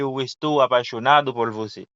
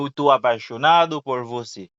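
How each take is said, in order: First: The verb is said in full as estou. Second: The verb is shortened to tô.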